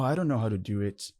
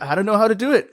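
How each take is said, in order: First: It sounds discouraged and defeated. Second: It sounds excited and eager. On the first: The speaker feels unable and gives up. The speaker calls it wrong. "You can say it like that" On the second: The speaker sees a chance to learn something new. The speaker calls it right. "It's great. I can learn it"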